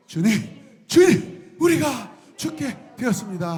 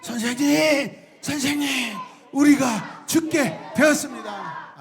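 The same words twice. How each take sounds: First: Desperate cry. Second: Higher, slow urgent wail; desperate cry. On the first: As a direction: pitch climbs to a panicked high shout. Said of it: "하고 부르죠". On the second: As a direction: drag it out in panic. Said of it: "뭐라고 이야기해요". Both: Acted.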